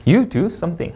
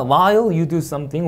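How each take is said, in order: First: "you do something" falling to a close; spaced words, final fall on "something". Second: Slow read, "something" kept up; drawn-out "while you do something" hanging on "something"; rising tone. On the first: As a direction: drop "something" to finish. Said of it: "내려있습니다". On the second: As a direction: leave "something" lifted, clause unfinished. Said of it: "올려있고". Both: Shown as a demonstration.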